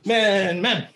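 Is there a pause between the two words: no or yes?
no. The words follow each other with no pause. This is one two-step technique. The speaker calls it right. "You don't stop in between"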